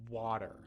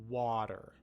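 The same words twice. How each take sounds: No difference in how they are said.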